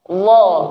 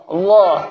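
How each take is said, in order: First: It starts with a soft, non-hissing dh sound. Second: The same.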